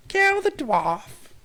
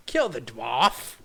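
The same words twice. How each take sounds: First: Much higher, louder, very slow Kill the dwarf shrieked; screeched battle cry. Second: Louder, slow Kill the dwarf shouted; hammed-up battle cry. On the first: Pretend. Streamer's figure shrieking Kill the dwarf, then apologizing for eardrums. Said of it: "Sorry, rest in peace, uh, ear". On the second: Streamer's figure shouting Kill the dwarf. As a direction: bellow Kill the dwarf slowly. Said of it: "He's like".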